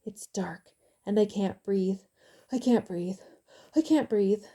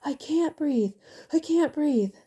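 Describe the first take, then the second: First: Starts as a frantic whisper, grows louder; frantic, building. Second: Terrified scream, much higher and louder. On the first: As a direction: whisper it in fear, then push it out louder each time. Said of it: "he started speaking frantically". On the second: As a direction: scream it out in blind panic. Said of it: "he screamed out". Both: A narrator's reading.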